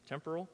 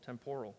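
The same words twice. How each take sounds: First: Temporal as TEM-per-al, softly questioning; stress on first syllable. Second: Temporal as tem-POR-al, low and soft; stress on second syllable. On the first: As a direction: check temporal with the accent on TEM, rising at the end. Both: Shown as a demonstration. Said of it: "Put the accent on the right syllable".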